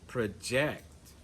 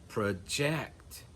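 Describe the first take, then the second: Both takes have the same delivery.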